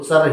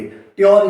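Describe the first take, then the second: First: The ending is said with a ch sound. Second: The ending is said with a t and y sound. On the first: The speaker calls it right. "इसको चर ही पढ़ते हैं" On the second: The speaker calls it wrong. "ट्योर इसको कभी नहीं पढ़ते हैं"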